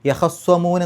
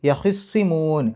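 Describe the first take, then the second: First: The kh sound is followed by an a vowel. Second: The kh sound is followed by an i vowel. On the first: "ഖാഇന് ഫത്ഹ്" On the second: "ഹാഇന് കെസർ"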